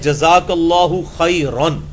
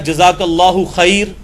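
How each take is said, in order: First: It ends with the nasal ending 'khairan'. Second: It has 'Allahu' but ends bare in 'khair'. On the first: The speaker calls it right. "रा अलिफ दो जबर रन।" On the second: The speaker calls it wrong. "ये भी लफ्ज़ गलत है।"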